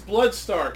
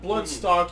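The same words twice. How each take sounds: First: The last syllable is pronounced like 'stark'. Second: The last syllable is pronounced like 'stock'. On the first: The speaker calls it right. "It is Bloodstock" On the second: The speaker calls it wrong. "It's not Bloodstock"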